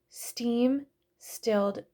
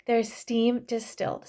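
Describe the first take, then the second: First: Slow 'steam stilled', dropping the dis- of distilled; stumbled word. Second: 'steam distilled' said cleanly with the full dis- syllable; corrected word. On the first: Oil vlogger trips over the extraction word, slow stumble. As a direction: drag out 'steam stilled' as a garbled slip. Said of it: "I'm stumbling on my words". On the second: Vlogger finally gets the word out, clean correction. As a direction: land 'distilled' properly at last. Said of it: "Sorry, I couldn't get that out". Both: Real, not acted.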